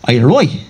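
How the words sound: The t sound in 'right' is dropped. "the Dublin one, which is where they drop their T's when they speak"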